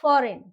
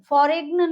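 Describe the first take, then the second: First: Said in the usual way. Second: फॉरेग्न with a hard g before n; mispronounced foreign. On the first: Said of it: "क्या pronounce करेंगे इसको". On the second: Shown as a demonstration. Teacher showing what not to say, फॉरेग्न with g sounded. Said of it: "नहीं बोलेंगे हम".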